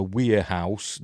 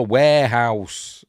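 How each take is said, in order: First: WAREHOUSE with the first syllable slipped, at usual pitch; mispronounced warehouse. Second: WAREHOUSE drawn out slowly and loud; emphatic WAREHOUSE. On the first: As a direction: stumble on the first vowel of warehouse. Slip, then corrected with "No. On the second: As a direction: hit warehouse hard, stretching it out. Emphatic self-correction after slip. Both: Real, not acted.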